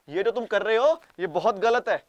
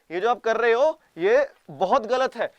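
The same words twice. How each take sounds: First: Wag a finger, half-hearted; mock scolding. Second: Slow, loud, higher put-on scold; mock stern warning. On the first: Japan pretending to scold Russia, loud mock reproach. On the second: Japan's fake warning to Russia, slow loud mock scold. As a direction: drag it out like a pompous official. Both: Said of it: "बोल रहे हो".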